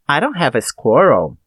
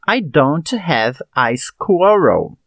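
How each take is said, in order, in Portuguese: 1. As palavras são ditas rapidamente e ficam juntas. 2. As palavras são ditas devagar e mantidas separadas. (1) "A segunda ficou mais rápida porque eu uni os sons da consoante com o da vogal" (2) "Observe as duas frases"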